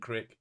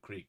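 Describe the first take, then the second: First: Crick said with a short i, as in brick. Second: Said in the usual way. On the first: Shown as a demonstration. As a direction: read crick the local way, short vowel. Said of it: "instead of creek". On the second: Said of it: "Yins and crick is".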